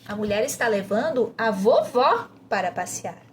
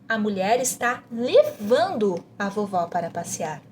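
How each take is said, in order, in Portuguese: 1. A ênfase está na palavra vovó. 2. A ênfase está na palavra levando. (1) "você vai enfatizar vovó" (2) "você vai enfatizar levando"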